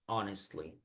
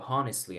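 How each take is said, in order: First: The h at the start is silent. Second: The h at the start is pronounced. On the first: The speaker calls it right. "Aquí sí es honestly" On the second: The speaker calls it wrong. "no vamos a decir honestly"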